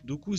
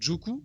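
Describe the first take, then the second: First: The name begins with a D sound. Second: The name begins with a J sound. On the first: The speaker calls it right. "c'est pas compliqué à prononcer" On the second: The speaker calls it wrong. "Tu l'appelles Joku"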